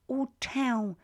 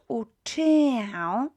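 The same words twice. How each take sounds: First: There is no extra 'y' vowel before the ending. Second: There is an extra 'y' vowel before the ending. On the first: The speaker calls it right. "We say uczę się polskiego" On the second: The speaker calls it wrong. "Not uczę. We drop the Y"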